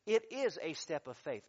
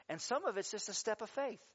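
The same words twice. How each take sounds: First: "is" punched, falling firmly; stress on is. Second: Said in the usual way. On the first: Shown as a demonstration. Pastor corrects himself to the congregation: stress on "is". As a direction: hit "is" hard: It IS a step of faith. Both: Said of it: "I should say it this way".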